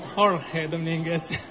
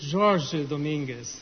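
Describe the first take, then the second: First: The name is pronounced with Spanish sounds. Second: The name is pronounced with Portuguese sounds. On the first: This is how the name was said in the introduction. The speaker calls it wrong. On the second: This is how the speaker's name is really said. The speaker calls it right. "My name is"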